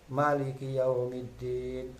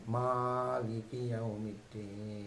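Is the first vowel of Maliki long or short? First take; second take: short; long. First: The first vowel of Maliki is short. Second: The first vowel of Maliki is long. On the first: It means king of the Day of Judgment. "dia membacanya pendek" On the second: It means king of kings. "maka dia mimnya panjang"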